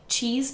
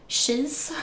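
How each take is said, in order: First: It starts with a ch sound. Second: It starts with an sh sound, Swedish-style.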